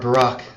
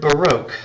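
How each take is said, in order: First: It is said with a British pronunciation. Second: It is said with an American pronunciation.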